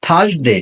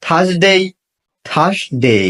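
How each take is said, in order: First: "থার্সডে" said as "THAS-de", short ending; mispronounced Thursday. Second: "থার্সডে" as "THAZ-dey", ending drawn out; correct Thursday. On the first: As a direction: say "থার্সডে" the common way with a brief "de". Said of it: "not Thursday". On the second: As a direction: model "থার্সডে" twice with a gliding "dey". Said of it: "শুদ্ধ উচ্চারণ করতে". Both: Shown as a demonstration.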